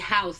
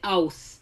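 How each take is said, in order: First: The word starts with an h sound. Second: The word starts without an h sound. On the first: "if they were to say house" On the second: "they'd say ouse"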